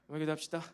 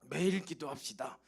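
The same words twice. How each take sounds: First: It is said flatly, without feeling. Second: It is said with strong heartfelt feeling.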